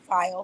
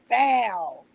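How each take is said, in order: First: The word is said in standard English pronunciation. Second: The word is said in a country pronunciation. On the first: The speaker calls it right. "I can say it perfectly now" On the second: The speaker calls it wrong. "when I got here to Vegas, I was saying foul"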